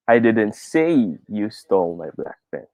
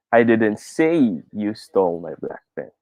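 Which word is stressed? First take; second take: say; say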